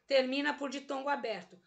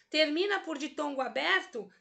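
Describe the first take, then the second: First: "Termina por ditongo aberto." falling, as a confirmed answer; statement tune. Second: "Termina por ditongo aberto?" as a lifted quiz question; question tune. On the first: Teacher confirming the rule on herói, "Termina por ditongo aberto." in statement tune. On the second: Teacher testing the rule on herói, "Termina por ditongo aberto?" in questioning tune. Teacher asks, then answers herself. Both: Shown as a demonstration.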